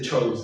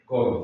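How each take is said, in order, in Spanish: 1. La palabra empieza con sonido ch. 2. La palabra empieza con sonido k. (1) "no se dice chorus" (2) "se dice querubín, chorus"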